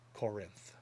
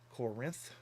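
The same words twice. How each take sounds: First: The stress is on the first syllable. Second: The stress is on the second syllable.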